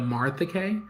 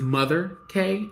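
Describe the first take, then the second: First: The name sounds like 'Martha', without a twang. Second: The name sounds like 'Mother', with a southern twang. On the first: "instead of Martha K" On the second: "I pronounce it as Mother K"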